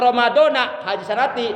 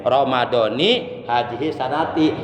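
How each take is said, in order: First: Ramadan ends with an a vowel. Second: Ramadan ends with an i vowel. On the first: Ramadan is cut off from this year. The speaker calls it wrong. "berarti itu terputus antara kalimat Ramadan dengan kalimat haji sanati" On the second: Ramadan is tied to this year. The speaker calls it right. "maka rapat Ramadannya dibaca J"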